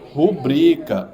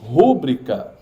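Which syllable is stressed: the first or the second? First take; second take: second; first. First: The stress is on the second syllable. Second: The stress is on the first syllable. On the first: The speaker calls it right. "O mais forte é o bri" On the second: The speaker calls it wrong. "Por mais que eu pronuncie, pronuncie rúbrica, tá errado"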